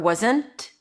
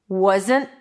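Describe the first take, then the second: First: The final T is released with a pop. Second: The final T is held, not released.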